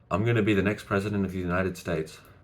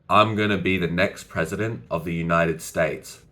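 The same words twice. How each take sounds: First: It is said quickly, without pauses. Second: It is said slowly, with pauses.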